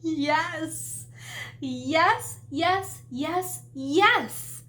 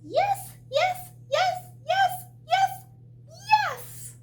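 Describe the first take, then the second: First: It is said in an ordinary-sized voice. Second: It is said in a tiny, squeaky voice.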